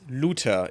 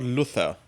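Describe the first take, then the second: First: The middle consonant is a plain t sound. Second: The middle consonant is a th sound. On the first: The speaker calls it right. "it's Luther" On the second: The speaker calls it wrong. "It's not Luther. That's not correct"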